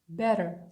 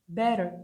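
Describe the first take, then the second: No difference in how they are said.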